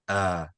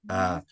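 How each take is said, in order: First: The vowel is said with a medium mouth opening. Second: The vowel is said with a medium mouth opening.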